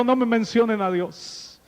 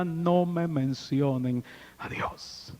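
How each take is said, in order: First: Angry refusal. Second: Soft, slow "No me mencionen a Dios", stress on "No"; bitter murmur. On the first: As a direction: bark out "No me mencionen a Dios". Grieving man rejects God. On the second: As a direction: mutter "No me mencionen a Dios" under the breath. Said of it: "él decía". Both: Retold or imitated.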